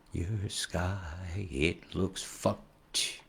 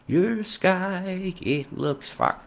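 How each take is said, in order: First: Said in the usual way. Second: High squawky duck voice, straining; a failed try at a cartoon duck; high pitched duck impression, strained. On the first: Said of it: "just forget that shit". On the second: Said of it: "I can't do the duck voice".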